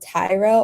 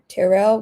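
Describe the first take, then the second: First: The first vowel is a long I sound. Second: The first vowel is a short I sound. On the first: "the first I is like a long I" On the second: "which is short"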